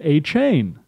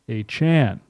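First: The last syllable rhymes with 'rain'. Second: The last syllable rhymes with 'con'. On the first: This is the earlier pronunciation of the name. "a reporter was correct when pronouncing it A-Chain" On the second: This is the updated pronunciation of the name. "A-Chain updated his name pronunciation. It's Devon A-Chan"

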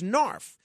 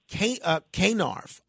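First: The K at the start is silent. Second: The K at the start is pronounced. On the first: "I pronounce it as Narf, because I think that KN should create a silent K sound" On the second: "I don't pronounce it K-Narf"

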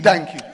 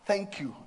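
First: It sounds grudging and unfriendly. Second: It sounds warm and grateful.

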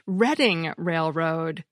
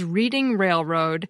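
First: Reading sounds different from the verb reading. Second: Reading sounds like the verb reading. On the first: The speaker calls it right. "is actually pronounced Reading Railroad" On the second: The speaker calls it wrong. "have always pronounced as Reading Railroad"

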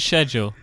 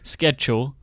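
First: The word begins with an 'sh' sound. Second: The word begins with an 'sk' sound. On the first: The speaker calls it right. "There's no K in there. Sure for schedule" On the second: The speaker calls it wrong. "Not schedule, or however you Americans say it"

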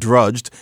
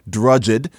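First: The ending is a plain d sound. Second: The ending is a separate ed syllable. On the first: This is the newer way of saying it. "but drudged" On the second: This is the older way of saying it. "not drudged"

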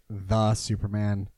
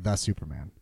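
First: The word 'the' is stressed. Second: The word 'Superman' is stressed. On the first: "Do they put the emphasis, like, do they like" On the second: "or is it just like"

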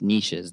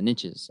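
First: It is said so it does not rhyme with riches. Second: It is said to rhyme with riches. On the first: "then it doesn't really rhyme and sound as cool" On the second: "The riches are in the niches"

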